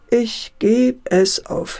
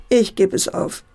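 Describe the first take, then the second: First: Slow "ich geb es auf", each word set apart; slow resignation. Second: Said in the usual way. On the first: A narrator's reading. Father gives up on his son, slowly resigned. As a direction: give up word by word, drawn out.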